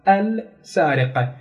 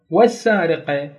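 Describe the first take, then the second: First: السارقة drawn out very slowly, its lam clearly pronounced; lam sounded out. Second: Said in the usual way. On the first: Shown as a demonstration. Teacher showing students the lam in السارقة, very slowly. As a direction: stretch out السارقة so the lam is heard. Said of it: "هيك نظهر اللام". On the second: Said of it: "إذا نلفظها لفظ".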